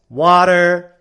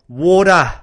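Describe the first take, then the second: First: It is said in an American accent. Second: It is said in an Australian accent.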